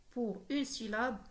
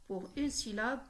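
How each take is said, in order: Both takes have the same delivery.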